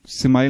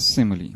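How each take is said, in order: First: It ends with an 'ile' sound, like smile. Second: It ends with an 'ee' sound, like mili. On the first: The speaker calls it wrong. "मैं बचपन से बोलता सिमाइल यार, हालांकि गलत है" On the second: The speaker calls it right. "इसका pronunciation क्या है? सिमली"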